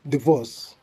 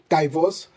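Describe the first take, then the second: First: The i is said as an ee sound. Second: The i is said as an eye diphthong. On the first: The speaker calls it right. "we should say divorce" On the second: The speaker calls it wrong. "we shouldn't say divorce"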